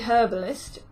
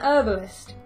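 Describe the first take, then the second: First: The word begins with an audible H sound. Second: The word begins without an H sound. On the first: This is the British way of saying it. "when I say it, would be a herbalist" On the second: This is the American way of saying it. "if you want to say it in American English, it would be an herbalist"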